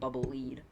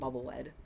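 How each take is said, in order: First: Lead rhymes with seed, like to guide. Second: Lead rhymes with bed, like the metal. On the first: The name refers to leading or guiding. "instead of Bubble Lead" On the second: The name refers to the metal lead. "I always call it Bubble Lead"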